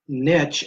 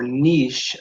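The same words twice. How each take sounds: First: The word has a short vowel, like 'nitch'. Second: The word has a long vowel, like 'neesh'. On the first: "niche, N I C H" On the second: "or niche, like N E E S H"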